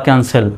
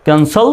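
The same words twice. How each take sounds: First: Second ক্যান্সেল said as "kan-sel"; e vowel ending on the second ক্যান্সেল; second ক্যান্সেল closing in "sel", not "sol"; accepted e variant. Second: First ক্যান্সেল said as "kan-sol"; rounded o ending on the first ক্যান্সেল; first ক্যান্সেল closing in "sol", not "sel"; accepted o variant. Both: Shown as a demonstration. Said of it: "দুটো উচ্চারণই সঠিক".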